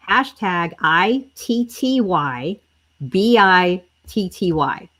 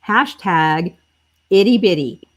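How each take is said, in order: First: Letter by letter, slow and careful, so viewers can type "I T T Y B I T T Y"; dictating "I T T Y B I T T Y" slowly for the comments; slow spelling. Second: Said in the usual way. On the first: Shown as a demonstration. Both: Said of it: "y'all have to type this right".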